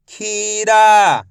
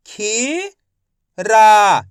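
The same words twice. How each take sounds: First: Said in the usual way. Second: खीरा drawn out slowly, each syllable separate; teacher sounding out खीरा slowly. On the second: Shown as a demonstration. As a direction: stretch खीरा into खी and रा. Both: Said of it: "मैं किस तरीके से एक एक अक्षर का उच्चारण करके".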